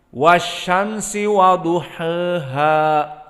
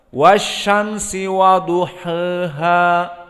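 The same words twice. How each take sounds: No difference in how they are said.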